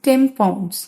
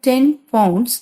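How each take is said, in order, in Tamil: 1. முதல் வார்த்தை 'm' ஒலியில் முடிகிறது. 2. முதல் வார்த்தை தெளிவான 'n' ஒலியில் முடிகிறது.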